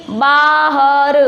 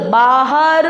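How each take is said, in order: First: बाहर stretched slowly, each sound held; syllable-by-syllable reading. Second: Said in the usual way. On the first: Shown as a demonstration. Teacher reads along with pupils, बाहर sounded out slowly. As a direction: spell out बाहर by ear, very slowly. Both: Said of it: "तो पढ़ो".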